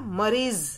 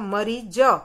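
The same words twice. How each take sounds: First: The word ends with a z sound. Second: The word ends with a j sound. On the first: "ये नुक्ता लगा है तो उसका उच्चारण होगा मरीज" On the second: "अगर नुक्ता नहीं लगा होता तो उसका उच्चारण क्या होगा?"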